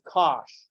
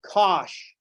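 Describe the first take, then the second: First: "Kosh" as a single clipped syllable with a short o. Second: "Kosh" said as one syllable, rhyming with gosh. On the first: The majority of the world saying "Kosh" plainly. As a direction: say "Kosh" like the word gosh with a k. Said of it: "The majority of the world just sees this and says". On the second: Someone abbreviating the hyperbolic cosine: "Kosh" as one syllable. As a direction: clip it to "Kosh", short o and sh. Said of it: "Someone is gonna come along and say". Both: Retold or imitated.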